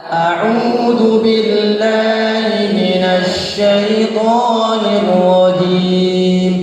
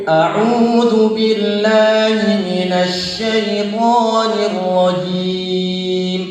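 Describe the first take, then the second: Both takes have the same delivery.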